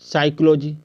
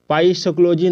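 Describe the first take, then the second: First: The word begins without any p sound. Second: The word begins with a pronounced p sound. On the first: The speaker calls it right. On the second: The speaker calls it wrong.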